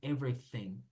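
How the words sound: The th is said as an f sound. This is the British way. "los británicos las T H pronuncian como F"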